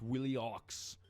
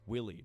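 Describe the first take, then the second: First: The name ends with an audible x sound. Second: The name ends without any x sound. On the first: The speaker calls it wrong. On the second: The speaker calls it right. "the ox is is silent"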